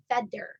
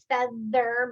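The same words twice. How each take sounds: First: The middle consonant is a D sound. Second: The middle consonant is a TH sound.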